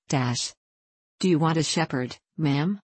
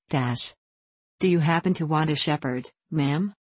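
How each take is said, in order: First: A touch of abashed sadness; mild sad embarrassment. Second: A slightly unsure, halting ask; understated hesitant request; hesitating. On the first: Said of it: "repeated in an abashed and sad voice". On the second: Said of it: "he said in a hesitating voice". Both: A narrator's reading.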